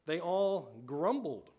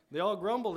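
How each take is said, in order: First: Slow scripture reading. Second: Grumbled said higher and louder, leaning hard on grumbled; emphatic repeat. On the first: Preacher reading the verse to the congregation, slow and deliberate. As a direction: read out slowly and deliberately, word by word. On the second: Preacher repeating the verse for the congregation, emphatic on grumbled. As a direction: drive the point home with grumbled. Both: Shown as a demonstration.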